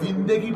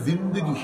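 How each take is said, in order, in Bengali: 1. 'zind' ও 'gi'-র মাঝে একটি 'e' স্বরধ্বনি শোনা যায়। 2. 'zind' ও 'gi'-র মাঝে কোনো স্বরধ্বনি শোনা যায় না।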